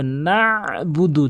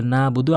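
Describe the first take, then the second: First: "নাবুদু" with a long squeezed ain after na; pressed ain. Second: "নাবুদু" with a plain open first a; dropped ain. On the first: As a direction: press the throat hard inside "নাবুদু", slowly. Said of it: "চাপ দিয়ে বলতে হবে". (আইনে চাপ দিয়ে "নাবুদু") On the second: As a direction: say "নাবুদু" with no throat squeeze after na. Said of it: "আইনের উচ্চারণটি বাদ দিয়ে ফেলে". (আইন বাদ দিয়ে "নাবুদু") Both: Shown as a demonstration.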